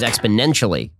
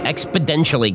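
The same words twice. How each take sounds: First: The middle n sound is said as a plain n. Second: The middle n sound is said like a d. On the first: "You thought that it was exponentially" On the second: "With a D"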